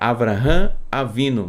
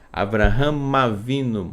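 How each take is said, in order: First: The two words are said separately. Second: The final m runs into the next word. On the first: The speaker calls it wrong. "seria Abraham Avino, mas ninguém fala assim" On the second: The speaker calls it right. "esse am, Abraham, com a boca fechada, já emenda com A aqui"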